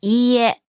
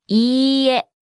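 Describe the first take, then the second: First: Said in the usual way. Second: いいえ with the long い stretched out; slow model. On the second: Shown as a demonstration. Teacher breaks down the word for no, slowly. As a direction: draw out いいえ slowly and evenly.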